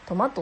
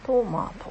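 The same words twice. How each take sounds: First: The pitch rises to a high second syllable. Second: The pitch starts high and falls after the first syllable. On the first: This is the Kansai way of saying it. "関西では、私は関西人なのでトマトって言います。トマートでマーが高くなるんですね。" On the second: This is the standard Japanese way of saying it. "標準語ではトマトって上から下がっていく"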